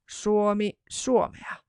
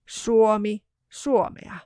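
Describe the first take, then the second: No difference in how they are said.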